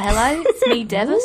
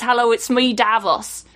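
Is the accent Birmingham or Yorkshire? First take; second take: Birmingham; Yorkshire. First: It is said in a Birmingham accent. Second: It is said in a Yorkshire accent.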